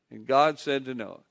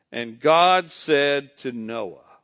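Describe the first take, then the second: First: Said in the usual way. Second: Slow lead-in. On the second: Shown as a demonstration. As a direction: lead the congregation slowly. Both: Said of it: "just say the, the first five words".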